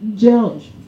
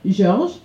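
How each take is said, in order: First: The name is said with English pronunciation. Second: The name is said with French pronunciation. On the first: "dans sa langue, ça se prononce George" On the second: "La maîtresse nous a expliqué qu'il s'appelait Georges"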